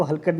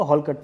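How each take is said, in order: First: हलकट with a short flat ha, said as the wrong way; wrong reading. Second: हॉलकट with an open rounded hol sound; correct reading. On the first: Teacher warning students, the wrong pronunciation. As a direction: read हलकट as hal-kat, the mistaken version. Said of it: "इसको हलकट मत नहीं पढ़ना है". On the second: Teacher correcting students, the right pronunciation. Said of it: "इसको हॉलकट पढ़ना है". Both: Shown as a demonstration.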